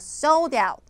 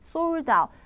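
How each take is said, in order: First: It is said English style, with clear stress. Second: It is said flat, Korean style, without stress. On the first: The speaker calls it right. "영어로 전달이 되기 위해서는요... 강세가 여러분 최우선순위라고... 그래서 sold out 하셔야 돼요" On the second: The speaker calls it wrong. "우리말로는 그냥 sold out. 우리말에는 강세라는 그 규칙이 적용이 안 되기 때문에요"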